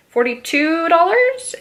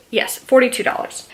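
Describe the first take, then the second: First: Stunned, whispered question; breathless disbelief at price; shocked whisper. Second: Said in the usual way. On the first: Real, not acted.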